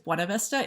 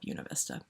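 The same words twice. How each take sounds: First: The name is pronounced the way it is spelled. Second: The name is pronounced in an altered local way. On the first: The speaker calls it right. "It it looks like it's Buena Vista" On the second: The speaker calls it wrong. "they call it Buena Vista"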